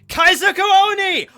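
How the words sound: It is yelled loudly at full voice. The speaker calls it right. "you have to say it exactly like that. At least that loud"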